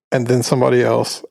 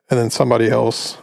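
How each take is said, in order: Both takes have the same delivery.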